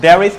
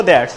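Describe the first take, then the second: First: Said in the usual way. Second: দেয়ার্স run together as one syllable; contracted form. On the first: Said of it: "there is কে short করে". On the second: Shown as a demonstration. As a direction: shorten there is into a single দেয়ার্স. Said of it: "short করে আমরা বলবো". (দেয়ার্স, সংক্ষেপে এক টানে বলা)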